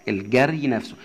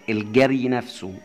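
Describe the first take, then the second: The two takes are said the same way.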